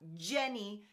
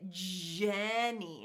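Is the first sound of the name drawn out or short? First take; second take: short; drawn out. First: The first sound is said short and quick. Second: The first sound is held out long. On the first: "then we'll shorten it up" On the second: "we might hold it out a little bit"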